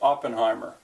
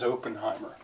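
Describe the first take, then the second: First: The name begins with an 'ah' vowel. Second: The name begins with an 'oh' vowel. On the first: This is how the name is said widely. "in the world at large, is pronounced Oppenheimer" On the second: This is how the name is said locally. "But here locally, the name is Oppenheimer"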